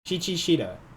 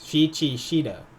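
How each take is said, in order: The two takes are said the same way.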